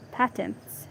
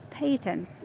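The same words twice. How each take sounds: First: "patents" with a short a, as in "pat"; short-a pronunciation. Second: "Patents" with a long a, as in "pay"; long-a pronunciation. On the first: Reader trying out a word, "patents" with short a. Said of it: "yeah, I think patents". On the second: Reader correcting the word, "Patents" with long a. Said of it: "it's patents". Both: Shown as a demonstration.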